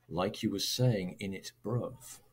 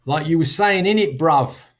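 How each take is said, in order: First: Said in the usual way. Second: Loud, higher London street accent; London MLE, pitched up and punchy; multicultural London English. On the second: Shown as a demonstration. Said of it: "characteristic of multicultural London English".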